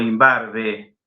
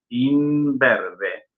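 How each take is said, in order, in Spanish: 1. La segunda sílaba tiene una vocal 'a'. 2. La segunda sílaba tiene una vocal 'e'. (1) "No decimos" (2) "no, imberbe"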